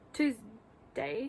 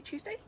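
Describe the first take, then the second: First: Said in the usual way. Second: Tuesday? asked with a sharp high rise; doubting question. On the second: Real, not acted. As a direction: question the day, suddenly unsure. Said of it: "Yes, it's Tuesday".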